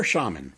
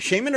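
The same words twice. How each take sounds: First: Shaman said SHAH-mun; first vowel of Shaman as in "father"; broad-A Shaman. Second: Shaman said SHAY-mun; first vowel of Shaman rhymes with "day"; long-A Shaman. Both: Shown as a demonstration. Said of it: "is it Shaman or Shaman?".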